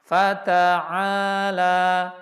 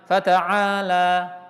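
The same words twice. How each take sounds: First: The first syllables are even in length. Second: The first syllables are hurried and uneven. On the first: The speaker calls it right. "itu fata harus sama" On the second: The speaker calls it wrong. "jangan fata'ala ... ta-nya diburu-buru atau fa-nya lebih cepat"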